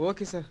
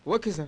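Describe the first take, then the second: First: It is said softly. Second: It is said loudly.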